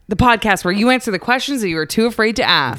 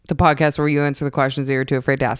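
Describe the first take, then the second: First: It is said in an excited, happy way. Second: It is said in a flat, monotone way.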